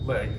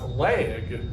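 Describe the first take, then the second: First: The word is said as one short syllable. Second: The word is drawn out into three syllables. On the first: "which I would pronounce leg, one syllable" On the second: "she would pronounce leg because it has three letters and therefore has three syllables"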